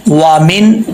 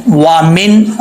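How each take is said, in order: No difference in how they are said.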